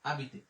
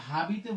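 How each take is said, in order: First: আবিতে with a silent h, starting straight on the vowel; correct French pronunciation. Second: হাবিতে with a sounded h at the start; wrong pronunciation. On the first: Teacher to students, silent-h correct French version. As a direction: drop the h and say আবিতে. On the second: Teacher showing students the wrong way, h sounded. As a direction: say হাবিতে with a clear h, the way not to say it. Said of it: "হাবিতে বলবো না". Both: Shown as a demonstration.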